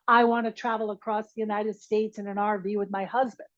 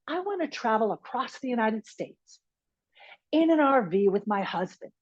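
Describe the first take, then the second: First: The sentence is said without an inner pause. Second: The sentence is split by a pause.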